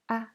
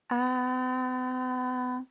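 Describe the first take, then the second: First: The pitch is short, light and unstressed. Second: The pitch stays high and level. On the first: "c'est un ton neutre" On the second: "Premier ton, c'est un ton plat et haut"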